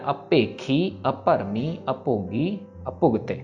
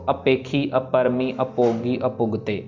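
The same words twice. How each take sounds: First: The consonants carry extra breath and weight. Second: The consonants are plain p sounds without breath. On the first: The speaker calls it right. "ये चारों के चारों word में बाहर देना हमने" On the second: The speaker calls it wrong. "ऐसे नहीं कहना"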